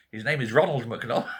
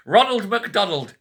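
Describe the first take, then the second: First: Said in the usual way. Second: Laughing it out, higher and slow; can't get the name out for laughing; repeating the economist's name in disbelieving laughter. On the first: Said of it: "I kid you not". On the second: Real, not acted.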